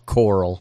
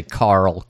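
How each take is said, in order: First: "Coral" with a rounded OR vowel; Carl said as Coral. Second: Said in the usual way. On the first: Shown as a demonstration. Podcaster mimicking the actor, "Coral" with OR vowel. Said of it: "even a Southern American wouldn't say Carl". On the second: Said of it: "wouldn't say Carl, Coral".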